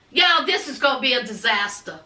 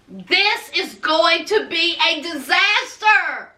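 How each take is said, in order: First: Said in the usual way. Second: Every word of "disaster" sentence spelled out slowly; slow down and lean hard on "disaster"; emphatic slow repeat. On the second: Real, not acted. Host warning viewers this is a disaster, emphatic and slow.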